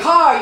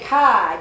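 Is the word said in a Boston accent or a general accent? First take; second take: general; Boston. First: The word is said without a Boston accent. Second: The word is said in a Boston accent.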